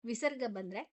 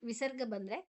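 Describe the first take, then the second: No difference in how they are said.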